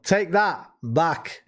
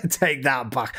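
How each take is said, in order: First: "take that" set apart, then "back" after a pause; pun emphasis. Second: Slow, amused delivery with laughter; laughing. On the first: Shown as a demonstration. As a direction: draw out "take that back" very slowly to flag the pun. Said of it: "I don't know if you meant that or not". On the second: Real, not acted. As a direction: say it through a laugh. Laughing at an accidental pun.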